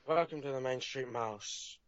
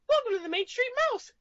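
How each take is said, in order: First: It is said in a Jack Sparrow voice. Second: It is said in a Mickey Mouse voice.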